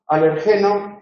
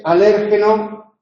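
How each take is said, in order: First: Alergeno stressed on its third syllable. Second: Alérgeno stressed on its second syllable, slowly; alérgeno esdrújula; stress on LÉR. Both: Shown as a demonstration. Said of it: "Otros cambios acentuales recientes".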